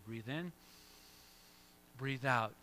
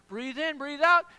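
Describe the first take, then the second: First: Soft, low guided breath cue; calm breathing cue. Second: Higher and louder, pumped-up breath call; energetic breathing cue. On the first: Pastor guides the congregation through a calm breath. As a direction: talk them gently through a breath. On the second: Pastor fires up the congregation like a workout coach, excited. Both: Shown as a demonstration. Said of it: "So you gotta pause, breathe in".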